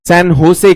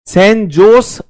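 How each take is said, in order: First: Jose begins with an H sound. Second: Jose begins with a J sound. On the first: This is how the local people say it. "वो लोग इसे सैन होसे कहते हैं। जे को वो ह की तरह प्रोनाउंस करते हैं" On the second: This is how Indians say it. "हम कहेंगे भारतीय"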